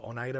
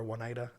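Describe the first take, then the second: First: Oneida starting on a plain "oh" sound; Oneida as oh-NYE-duh. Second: Oneida starting with a W sound; Oneida as wuh-NYE-duh. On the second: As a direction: say Oneida as won-EYE-duh, like "won" at the front. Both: Shown as a demonstration. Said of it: "have a hard time pronouncing this".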